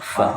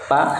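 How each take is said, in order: First: It begins with an f sound. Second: It begins with a p sound. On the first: The speaker calls it right. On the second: The speaker calls it wrong.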